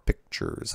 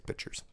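First: The k sound in the middle is clearly pronounced. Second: The k sound in the middle is dropped. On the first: "I'm supposed to use more, enunciate that more" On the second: "I say pictures. That's because I don't like the C that's in there"

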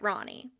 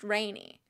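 First: The first syllable does not sound like 'rain'. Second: The first syllable sounds like the word 'rain'. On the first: The speaker calls it right. "because that is the correct pronunciation" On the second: The speaker calls it wrong. "Rain is water. So maybe her name is pronounced Rainy"

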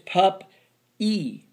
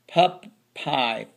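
First: The word ends with an 'ee' sound. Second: The word ends with an 'eye' sound. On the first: The speaker calls it right. "it's pup e. That's the sound it makes" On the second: The speaker calls it wrong. "That looks like pup by. Pup pie, pup pie. No"

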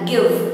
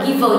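First: The final v is held with continuous airflow. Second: The final v is clipped with an added vowel. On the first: The speaker calls it right. "mình đọc là give" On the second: The speaker calls it wrong. "Mình không đọc là giver nhá"

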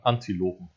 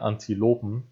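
First: The stress falls on the first syllable 'An'. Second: The stress falls on the syllable 'lo'. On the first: This would fit the rhyme pattern better. "müsste das A bei Antilopen stärker betont werden" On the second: This is the normal pronunciation. "also so wie man es richtig ausspricht"

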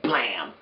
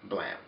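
First: The word is exclaimed loudly with high energy. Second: The word is said flatly with low energy. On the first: The speaker calls it right. "It's got an exclamation point, so you gotta say it like that" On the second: The speaker calls it wrong. "Not blam. No"

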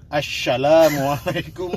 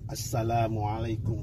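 First: The word is said with an sh sound. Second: The word is said with an s sound. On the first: The speaker calls it wrong. "jadi salah pas mukaddimah yang huruf sin jadi shin" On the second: The speaker calls it right. "Dengan mahraj"

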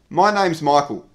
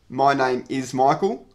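First: Name and is are joined as name's. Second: Name and is are said as two full words. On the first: The speaker calls it right. "We would say" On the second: The speaker calls it wrong. "we don't say"

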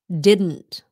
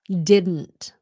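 First: The words are run together as one contraction. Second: The words are run together as one contraction.

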